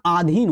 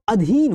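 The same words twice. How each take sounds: First: आधीन with a long opening "aa"; teacher's wrong example, आधीन with long aa; long first vowel. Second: अधीन with a short opening "a"; teacher's correct model of अधीन; short first vowel. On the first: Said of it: "ना आधीन होता". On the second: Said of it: "यहाँ पर अधीन होता है". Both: Shown as a demonstration.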